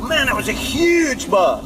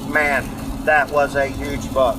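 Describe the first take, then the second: First: The voice rises with strong emphasis on words. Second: The voice stays flat without any emphasis. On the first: The speaker is excited about it. The speaker calls it right. "I may raise my voice and go" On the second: There is not a lot of feeling in it. The speaker calls it wrong. "in complete monotone, like a machine, like Siri"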